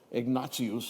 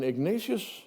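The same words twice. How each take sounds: First: The name is pronounced the classical Latin way. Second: The name is pronounced the usual English way.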